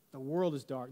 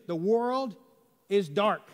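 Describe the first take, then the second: First: Lower, softer repeat of "The world is dark"; soft echo. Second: "is" pushed up and firm; stress on IS. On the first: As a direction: let it drop, quiet and low. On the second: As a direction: lean on "is dark". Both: Shown as a demonstration.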